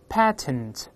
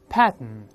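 First: A vowel is heard between the t and n. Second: It is faster, with the t released through the nose. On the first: "反正a 这个声音也有的，在里面patent" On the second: "再读快点patent patent。读快以后呢，就会失去爆破了。这么鼻腔这个会鼻腔爆破"

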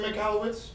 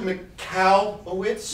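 First: The stress is not on the 'cow' syllable. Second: The stress falls on the 'cow' syllable. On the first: The speaker calls it wrong. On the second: The speaker calls it right.

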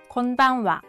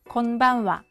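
The two takes are said the same way.

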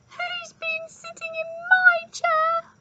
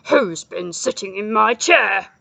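First: It is said in a squeaky voice. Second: It is said in a growling voice.

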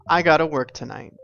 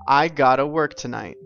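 First: Have to is replaced by gotta. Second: Have to is replaced by gotta.

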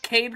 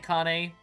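First: The word is said with an English pronunciation. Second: The word is said with an Italian pronunciation. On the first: This is the common way people say it. "is what most people tend to pronounce it as" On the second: This follows the word's origin as the word for dog. "but I say Cane because it's Italian for dog"

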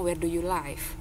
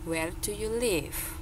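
First: The vowel in 'live' sounds like 'eye'. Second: The vowel in 'live' sounds like 'ih'. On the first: The speaker calls it wrong. "Kita nggak pernah bilang" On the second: The speaker calls it right. "Kamu tinggal di mana sih?"

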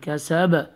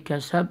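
First: The final b ends with an echoing bounce. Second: The final b ends without an echoing bounce. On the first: The speaker calls it right. "Apply the echo sound in the bass as well" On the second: The speaker calls it wrong. "Don't say"

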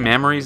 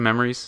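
First: The word is said in a put-on accent. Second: The word is said in a plain accent. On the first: The speaker calls it wrong. "I think it was just my attempt at the accent" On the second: The speaker calls it right. "I meant to say memories"

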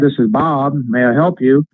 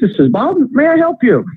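First: The greeting sounds flat and unexcited. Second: The greeting sounds upbeat and excited. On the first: The caller feels uneasy, as with a salesman. The speaker calls it wrong. "Don't say" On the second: The caller is made to feel welcome. The speaker calls it right. "You have to be upbeat. Be excited"

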